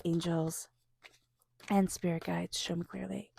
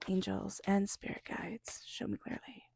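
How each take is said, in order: First: Softer, murmured plea to the guides; quiet invocation. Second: Softer, then a near whisper; whispered invocation. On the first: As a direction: murmur the invocation under the breath. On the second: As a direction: let the prayer fade into a whisper. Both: Acted.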